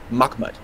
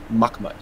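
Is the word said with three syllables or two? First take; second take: two; two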